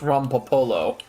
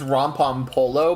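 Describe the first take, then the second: First: No extra M sound comes in the middle. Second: An extra M sound comes in the middle. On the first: The speaker calls it right. "but it's Rompapolo. There's not a second M" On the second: The speaker calls it wrong. "I keep saying it's Rompom Polo"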